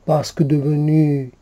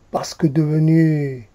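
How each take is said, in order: Both takes have the same delivery.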